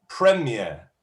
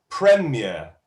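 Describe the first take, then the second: The two takes are said the same way.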